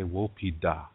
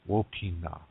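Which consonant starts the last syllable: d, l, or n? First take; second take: d; n. First: The last syllable begins with a d sound. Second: The last syllable begins with an n sound. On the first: This is the Dakota dialect form. "Dakota people say Wopida" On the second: This is the Nakota dialect form. "Nakota people, Wopina"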